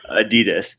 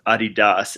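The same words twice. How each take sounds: First: It is said the American way. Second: It is said the international, non-American way. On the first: "here in America, we suck, so we end up calling it Adidas" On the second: "across the world, it's pronounced Adidas"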